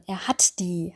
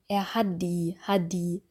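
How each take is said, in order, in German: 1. Das d in 'die' ist hart, nah an einem t. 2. Das d in 'die' ist ein weiches, stimmhaftes d. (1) "sondern ... ein D härter ausgesprochen" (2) "Wir würden nicht sagen"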